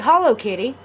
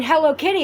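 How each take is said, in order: First: "Hollow" with an open ah in the first syllable; "Hollow Kitty" with ah in place of eh; misheard "Hollow Kitty". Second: "Hello" with a clear short e as in bed; "Hello Kitty" pronounced with a distinct eh; intended "Hello Kitty". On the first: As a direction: turn hello into "Hollow". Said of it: "I'm saying Hello Kitty". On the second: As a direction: say "Hello" with an eh in the first syllable. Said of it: "It sounds like Hollow Kitty". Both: Shown as a demonstration.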